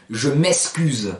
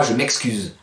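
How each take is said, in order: First: Je m'excuse slowly, with the ks of the Marseille way; imitating how people in Marseille say je m'excuse; Marseille accent. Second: Said in the usual way. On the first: Teacher imitating Marseille speech to the class. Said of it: "Combien de fois on entend à Marseille". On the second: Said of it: "et pas".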